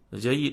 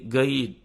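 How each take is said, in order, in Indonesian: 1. Kata ini diawali dengan bunyi 'j'. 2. Kata ini diawali dengan bunyi 'g' keras. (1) "mereka tidak menyebut jim" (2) "disebut ga"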